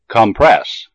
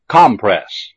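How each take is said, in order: First: The stress is on the second syllable. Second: The stress is on the first syllable. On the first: It is used as a verb. "the second syllable of the verb has primary stress" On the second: It is used as a noun. "the first syllable of the noun has primary stress"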